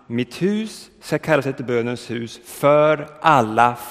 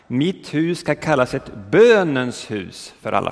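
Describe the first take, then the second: First: The stress falls away from the word bönens. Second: The stress falls on the word bönens. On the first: The speaker calls it right. "Man borde betona" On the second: The speaker calls it wrong. "man lägger ofta betoningen på bönen"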